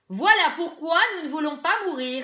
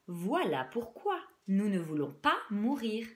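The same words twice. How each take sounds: First: The sentence is spoken very loudly without shouting. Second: Every syllable is pronounced with exaggerated clarity. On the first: "très fort, euh, sans, sans crier" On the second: "en surarticulant"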